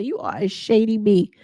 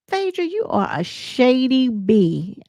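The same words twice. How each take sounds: First: Said in the usual way. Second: Slow, drawn-out sassy dig; slow mocking accusation; shady put-down. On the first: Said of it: "That's all she had to say". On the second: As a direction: lean into the insult slowly. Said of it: "So Toya said".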